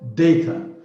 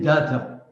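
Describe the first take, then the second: First: The first vowel sounds like the vowel in radar. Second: The first vowel differs from the vowel in radar. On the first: The speaker calls it right. "Yared is correct. Data. It's like radar" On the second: The speaker calls it wrong. "ninety-five percent of our people say data"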